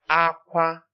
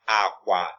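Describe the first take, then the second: First: Both syllables are said on a high tone. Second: Both syllables are said on a low tone. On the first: It means cry. "the next one is high tone" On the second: It means bed. "Low tone"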